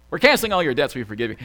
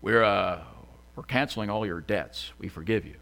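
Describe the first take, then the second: First: Half-joking impersonation of a president; Obama. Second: Low, halting presidential voice; badly faked president, pitched down and softening; Obama. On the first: Acted. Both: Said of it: "I don't know what that voice is".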